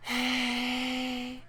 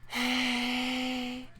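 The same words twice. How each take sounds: First: It is said with a strong push of air. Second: The same.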